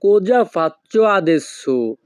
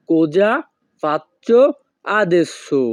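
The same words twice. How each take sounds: First: Very slow, whole phrase in one clear line; slow teaching demo. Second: Each word alone with a pause, rising then falling on adesso; word by word drill. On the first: Teacher to viewers, slow clear model phrase. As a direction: model it slowly and evenly. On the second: Teacher to viewers, separated word-by-word repetition. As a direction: drill one word at a time. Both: Shown as a demonstration. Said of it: "এই বাক্যের Italian ভাষা হবে".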